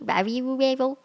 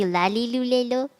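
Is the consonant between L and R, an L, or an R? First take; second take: R; L. First: Each syllable starts with a full R sound. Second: Each syllable starts with a clear L sound. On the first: "like a real R sound" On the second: "if it really was an L sound"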